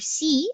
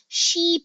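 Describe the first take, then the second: First: It starts with a plain s sound. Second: It starts with an sh sound. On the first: The speaker calls it wrong. "imbis na ... si ang basahin" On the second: The speaker calls it right. "she po dapat yan"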